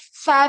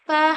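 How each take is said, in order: First: The sound is said with strong, heavy force. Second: The sound is said with a light touch. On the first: The speaker calls it wrong. "ऐसा नहीं है कि हम बहुत ज्यादा जोर लगा रहे हैं कि फा, फा ऐसे नहीं" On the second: The speaker calls it right. "हल्का सा टच करके छोड़ना है"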